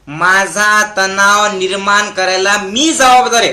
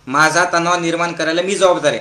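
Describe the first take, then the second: First: Deliberate dictation. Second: Brisk, lower-pitched repeat; quick recap. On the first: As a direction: lead the crowd word by word. Models line for crowd to repeat. (सावकाश, ठामपणे म्हणवून घेत) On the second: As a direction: run through the whole line quickly. Runs through line again with crowd. (भरभर, खालच्या सुरात) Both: Shown as a demonstration.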